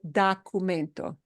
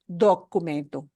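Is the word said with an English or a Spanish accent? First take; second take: English; Spanish. First: It is said with an English accent. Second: It is said with a Spanish accent. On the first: The speaker calls it wrong. "as English speakers say" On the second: The speaker calls it right. "we want to make sure we pronounce it as documento"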